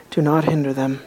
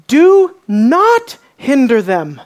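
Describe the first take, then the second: First: Much softer and lower, upset held in; quiet upset. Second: Slow, firm and raised, each word set down; Jesus rebuking the disciples, slow and stern; indignant command. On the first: Friend who speaks quietly when upset, soft and low. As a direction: say it low, the quiet kind of angry. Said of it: "his voice is not elevated". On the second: As Jesus scolding his disciples, firm and raised. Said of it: "His voice is filled with communication that he's not happy". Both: Acted.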